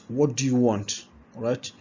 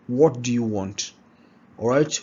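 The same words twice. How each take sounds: No difference in how they are said.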